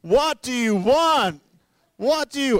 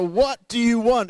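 First: High, loud, slow romantic-movie plea; repeating the movie line, even higher, hammed-up; Notebook movie shout. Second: High, loud, slow romantic-movie plea; pleading husband quoting a movie, high loud shout; Notebook movie shout. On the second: Retold or imitated. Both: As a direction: belt it like a lovesick film hero. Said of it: "He's seen the Notebook".

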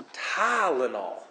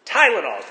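First: Tylenol with a long, drawn-out "Tah"; mock his accent by stretching the first syllable of Tylenol; daughter's mimicry. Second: Tylenol said loud and short; defiant correction. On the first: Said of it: "She went". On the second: Retold or imitated. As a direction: insist on Tylenol, quicker and louder. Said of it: "I'll say it how I want to".

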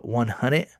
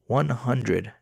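First: "One hundred?" with a rising question tune at the end; questioning echo. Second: "One hundred." read flat with a falling close; flat statement. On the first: Echoing amount in disbelief. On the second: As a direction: say "One hundred." as a dry statement that drops at the end. Scammer's flat text reply. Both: Retold or imitated.

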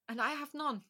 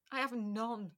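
First: None raised higher, said firmly; first "I have none" lifted high on "none"; stress on none. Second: Second "I have none", stretched "none" falling back; drawn-out none. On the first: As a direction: land hard on "none", pitched up. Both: Real, not acted. Repeats she has no answer.

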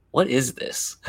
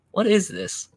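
First: Lightly imitated waitress question; a touch of mock puzzlement; puzzled waitress. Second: High-pitched mock waitress question; hammed-up curiosity, pitched way up; puzzled waitress. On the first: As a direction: lightly quote a curious waitress. Waitress puzzling over martini. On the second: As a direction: imitate a baffled waitress in a high voice. Waitress's question repeated, exaggerated.

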